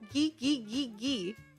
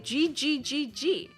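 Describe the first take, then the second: First: The G is said as a hard sound. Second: The G is said as a soft sound. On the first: The speaker calls it wrong. "You don't say ghee ghee ghee ghee" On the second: The speaker calls it right. "You say G G G G"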